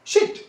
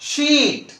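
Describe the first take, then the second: First: शिट? with a short clipped i, the wrong sound; short vowel as in sit. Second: शीट। with the ee stretched long and high; long vowel as in sheet; long ee sound. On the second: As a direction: draw out the ee in शीट।. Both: Shown as a demonstration. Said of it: "no, no, no".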